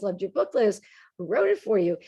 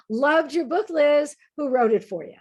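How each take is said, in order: First: Said in the usual way. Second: Higher, louder teasing dig passed off as a joke; a sly put-down wrapped in a grin; mock jokey jab. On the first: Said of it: "goes up to her and says". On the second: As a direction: needle her, pretending it's just kidding. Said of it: "in one of those "Come on, I'm just kidding" sort of ways".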